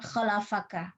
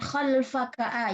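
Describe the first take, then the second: First: The L is followed by an A vowel. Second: The L is followed directly by F. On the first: "dibaca dengan fathah" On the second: "lam yang sukun"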